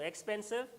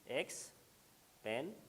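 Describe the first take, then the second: First: Said in the usual way. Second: "expensive" slowly split into three separate sounds, x, पेन, सिव; syllable by syllable. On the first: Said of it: "जब मैं कहूँ". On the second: Shown as a demonstration. Teacher counting out three syllables for students, "expensive" slowly split syllable by syllable. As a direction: break "expensive" into three syllables with long pauses between them. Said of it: "इसके कितने sounds हैं, syllable हैं तीन".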